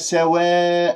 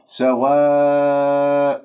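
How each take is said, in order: First: The long vowel is tilted toward e. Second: The long vowel is a plain open a. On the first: The speaker calls it wrong. "هذه إمالة في الألف" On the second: The speaker calls it right. "لاحظتم؟"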